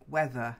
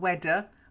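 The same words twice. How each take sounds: First: The word starts with a soft 'th' sound. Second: The word starts with a hard 'd' sound. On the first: The speaker calls it right. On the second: The speaker calls it wrong.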